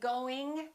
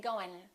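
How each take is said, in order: First: The final G sound is pronounced. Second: The final G sound is dropped. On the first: This is more professional speech. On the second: This is really casual speech.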